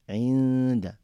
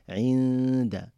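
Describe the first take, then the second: Both takes have the same delivery.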